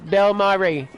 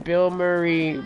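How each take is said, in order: First: "Bill Murray" said higher and louder, punching "Bill"; stressed Bill Murray. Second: Said in the usual way. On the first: Shown as a demonstration. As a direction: hit "Bill" hard in "Bill Murray" like a nickname call. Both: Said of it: "is how I used to say it".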